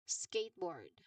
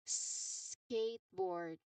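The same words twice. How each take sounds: First: The first s sound is short and normal. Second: The first s sound is drawn out long.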